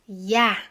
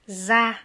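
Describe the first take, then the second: First: The syllable begins with a y sound. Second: The syllable begins with a z sound. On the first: This is the southern pronunciation. "dans le sud, ça va être ya" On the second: This is the northern pronunciation. "dans le nord za"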